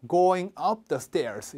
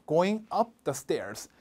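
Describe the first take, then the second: First: "up" given weight, quick model; stress on up. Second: "up" punched, slow and clear; stress on up. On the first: Teacher repeating the model, "up" stressed. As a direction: hit "up" in "Going up the stairs". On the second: Teacher showing the stressed preposition, slow and firm. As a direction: lean on the preposition "up". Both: Shown as a demonstration. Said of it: "전치사 세게 읽어주셔야".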